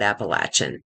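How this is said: It is said the southern Appalachian way.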